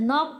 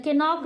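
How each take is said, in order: First: नॉक starting straight on the N; silent K. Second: के नॉक with the silent K sounded first; K voiced as its own syllable in के नॉक; wrong pronunciation. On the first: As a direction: leave the K out of नॉक. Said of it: "नॉक पढ़ते हैं". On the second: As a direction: sound an extra "ke" before the N in के नॉक. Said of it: "नहीं पढ़ते हैं". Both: Shown as a demonstration.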